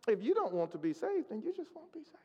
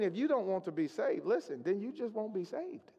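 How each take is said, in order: First: It is said in a gentle, kind tone. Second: It is said in a harsh, blunt tone.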